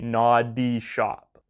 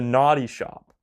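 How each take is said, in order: First: The D in the first word is crisply enunciated. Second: The D in the first word is soft and quick. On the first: The speaker calls it right. "you really gotta say" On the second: The speaker calls it wrong. "If you say it too quickly or you don't enunciate the D's hard enough"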